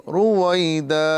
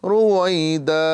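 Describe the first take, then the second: Both takes have the same delivery.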